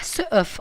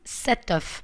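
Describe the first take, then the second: First: No t sound links into the noun. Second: A t sound links into the noun. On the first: The speaker calls it wrong. "on ne dit pas ce œuf" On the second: The speaker calls it right. "on dit cet œuf"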